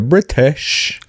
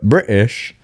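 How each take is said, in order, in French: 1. Le T est prononcé très fort. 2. Le T est complètement omis. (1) "Soit on les prononce trop" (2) "ou on les prononce pas du tout"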